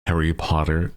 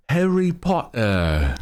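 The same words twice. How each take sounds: First: Said in the usual way. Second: Higher, slow British accent on Harry Potter; mock British accent. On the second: Shown as a demonstration. Streamer tries a British accent, drawn out slowly. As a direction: draw out Harry Potter like a posh Brit. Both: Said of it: "actual British dialect".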